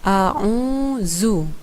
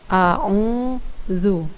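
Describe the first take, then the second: First: The middle consonant is made without the tongue tip out. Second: The middle consonant is made with the tongue tip out. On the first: The speaker calls it wrong. "ada beberapa hal yang perlu kita perbaiki" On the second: The speaker calls it right. "Harusnya dibaca"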